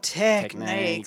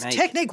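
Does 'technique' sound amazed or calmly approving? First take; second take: approving; amazed. First: It is said with calm, mild approval. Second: It is said with excited amazement. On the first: The technique was solid and consistent. "like good job" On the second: The technique was spectacular and unheard of.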